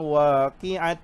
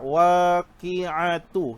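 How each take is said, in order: First: The word ends with a bare t sound. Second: The word ends with a t sound and vowel. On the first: The speaker calls it wrong. "Tak boleh dia baca macam tu, salah" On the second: The speaker calls it right. "itu bersambung"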